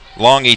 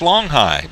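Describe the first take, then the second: First: The name ends with an 'ee' sound. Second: The name ends with a 'high' sound. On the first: The speaker calls it right. "capital E is the phonetic way to spell it" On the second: The speaker calls it wrong. "you would uh, immediately say, well, that's Longhigh. But it's not"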